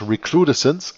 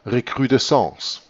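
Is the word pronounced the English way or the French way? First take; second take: English; French. First: The word is pronounced with English sounds. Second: The word is pronounced with French sounds. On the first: "But you can also pronounce it English" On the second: "It was a French word. It is then, of course, pronounced recrudescence"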